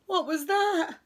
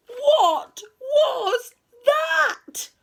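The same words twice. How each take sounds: First: High, loud, quick start of alarm; startled question. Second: Very high, loud, drawn-out wail; terrified cry. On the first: Friends hear tapping at the door, startled. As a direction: jump at a sudden noise. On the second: Friends panic at the third knock, terrified wail. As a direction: stretch every word out in alarm. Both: A narrator's reading.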